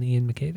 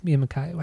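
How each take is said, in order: First: [name] with a final "ay" as in day; [name] as mac-KAY. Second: [name] with a final "eye", said softer; [name] as mac-KYE. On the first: Comparing singers to co-host, [name] said muh-KAY. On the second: Unsure of the name, trying [name] softly as muh-KYE. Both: Shown as a demonstration. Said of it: "How do you pronounce that guy's name?".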